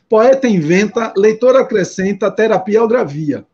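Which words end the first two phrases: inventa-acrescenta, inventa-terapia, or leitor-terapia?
inventa-acrescenta. Pauses fall after inventa and after acrescenta. "aqui está escrito assim"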